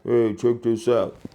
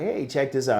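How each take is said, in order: First: It is said in a flat, unenthusiastic way. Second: It is said in an upbeat, excited way.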